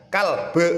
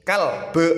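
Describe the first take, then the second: Both takes have the same delivery.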